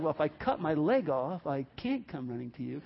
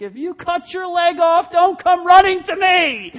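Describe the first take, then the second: First: Lower, quieter retort to the yelling; understated answer, sinking at the end; deadpan reply. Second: High, very loud paternal shout; hammed-up angry dad yell; yelling father. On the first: Acted. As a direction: drop down to a muted logical comeback. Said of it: "It's like". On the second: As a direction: bellow a warning across the lawn, stretching the end. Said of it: "some father yells to".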